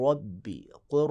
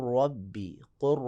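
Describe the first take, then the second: No difference in how they are said.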